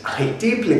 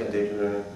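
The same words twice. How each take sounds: First: It is said clearly and with strong emphasis. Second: It is mumbled quietly and without energy. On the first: The speaker calls it right. "the more emphatically you say it" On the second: The speaker calls it wrong. "I'm just mumbling"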